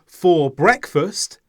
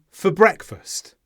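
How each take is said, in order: First: "for breakfast" slow, with a full "for"; separate words. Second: "for breakfast" merged as fuh-breakfast; linked words. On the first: Teacher shows unlinked speech, "for breakfast" as two full words. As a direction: keep "for" and "breakfast" apart, unreduced. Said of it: "Instead of saying". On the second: Teacher shows linking, "for breakfast" like one word. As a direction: run weak "for" straight into "breakfast". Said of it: "I link the words together". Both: Shown as a demonstration.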